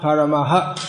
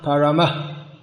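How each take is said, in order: First: The final h is followed by an echoed vowel. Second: The word ends in a bare breathy h. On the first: "pronounce the vowel like" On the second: "what we might call an eight sound"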